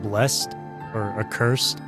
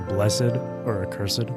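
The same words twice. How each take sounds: First: The words are pronounced in an ordinary everyday way. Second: The words are pronounced in a deliberately fancy way. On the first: "instead of saying something like" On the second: "It makes me feel smart and sophisticated"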